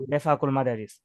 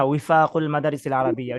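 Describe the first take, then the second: First: Bengali-style b opening বেফাকুল, not w; Bangla b for waw. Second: Arabic w sound opening উইফাকুল, not b; Arabic waw. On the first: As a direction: say বেফাকুল with a b at the start. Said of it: "এটাকে বলা হয় বাংলাতে বিফাক". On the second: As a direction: say উইফাকুল with a w at the start. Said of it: "মানে বাংলাতে ওয়াওটাকে". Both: Shown as a demonstration.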